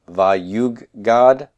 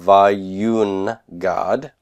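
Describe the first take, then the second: First: A doubled g sound replaces the n. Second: An n sound comes before the g. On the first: This is the actual form after assimilation. "Nun assimilates to the gimel" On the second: This is the underlying form before assimilation. "That's coming from vayun, God"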